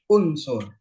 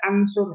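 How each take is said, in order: First: The word begins with a u vowel. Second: The word begins with an a vowel. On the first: The speaker calls it right. "harus unsur" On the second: The speaker calls it wrong. "nggak boleh ansur"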